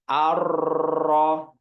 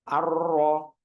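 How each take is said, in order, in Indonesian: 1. R-nya tebal, getarannya berlebihan. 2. R-nya tipis, getaran ringan di ujung lidah. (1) "bukan arro" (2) "jadi lembut getarannya di ujung lidahnya, tidak terlalu tebal"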